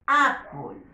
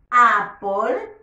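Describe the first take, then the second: First: Apple said as "A-pol", low, ending with a firm fall. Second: Apple said loudly as "A-pol", ending on a rise; rising Apple. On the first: Teacher answers her own prompt for the children, falling. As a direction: settle it down as the answer. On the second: Teacher prompts children to repeat Apple, rising. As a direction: ask it like a prompt for the class. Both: Shown as a demonstration.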